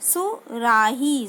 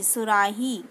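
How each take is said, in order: First: सुराही stretched slowly, falling; slow syllable-by-syllable reading. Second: Said in the usual way. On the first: Shown as a demonstration. Teacher shows the corrected word सुराही, sounded out slowly. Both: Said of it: "मात्रा लगाएंगे तो क्या बन जाएगा".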